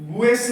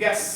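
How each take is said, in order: First: A u sound follows the g. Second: No u sound follows the g. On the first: The speaker calls it wrong. "गुएस नहीं बोलेंगे" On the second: The speaker calls it right. "यहाँ यू silent रहेगा"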